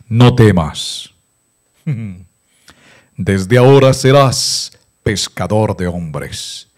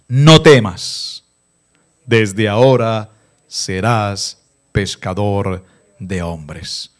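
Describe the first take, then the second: First: It is read in a solemn, dramatic, broadcast-Jesus voice. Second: It is read in a plain reading voice.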